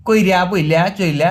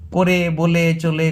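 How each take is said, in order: First: Slow কইরা বইলা চইলা, i before the consonant, ending in a; dialect forms. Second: Slow, spaced করে বলে চলে, each ending in e; standard written forms. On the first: Teacher quoting how some people say it, drawn-out dialect কইরা বইলা চইলা. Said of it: "কেউ বলে". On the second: Teacher praising the forms we write, slow standard করে বলে চলে. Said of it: "এলাই তো আমরা লিখি". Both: Shown as a demonstration.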